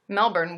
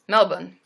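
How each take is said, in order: First: Melbourne is said without the Australian pronunciation. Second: Melbourne is said with the Australian pronunciation. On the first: The speaker calls it wrong. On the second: The speaker calls it right.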